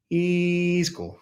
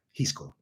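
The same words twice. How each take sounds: First: Higher, drawn-out mock approval; imitated approval. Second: Softly imitated approval, tossed off. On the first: Quoting a woman won over by the video, drawn out higher. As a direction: stretch it out as her change of heart. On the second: Quoting a woman won over by the video, said softly. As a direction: quote her quietly and briefly. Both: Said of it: "She's like".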